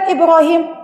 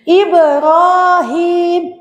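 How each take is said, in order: First: The long vowels are cut short. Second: The long vowels are held for two beats. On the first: The speaker calls it wrong. "bukan Ibrahim" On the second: The speaker calls it right. "Ibrahim itu ada dua harokat wajib"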